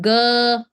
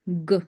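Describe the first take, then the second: First: The g sound has a strong uh vowel after it. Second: The g sound has no strong vowel after it. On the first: The speaker calls it wrong. "it's not g. Okay, no stress on uh" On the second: The speaker calls it right. "It's g"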